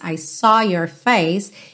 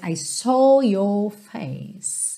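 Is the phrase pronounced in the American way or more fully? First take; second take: American; fuller. First: The phrase is said in a lighter American accent. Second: The phrase is said with fuller, rounder vowels. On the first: "A gente falaria no inglês americano" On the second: "E aqui a gente tem mais"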